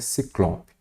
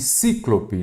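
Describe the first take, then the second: First: The stress is on the second syllable. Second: The stress is on the first syllable. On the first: The speaker calls it right. "a pronúncia correta e a escrita é ciclope" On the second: The speaker calls it wrong. "nada disso"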